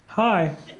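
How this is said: It is said in a greeting card's voice.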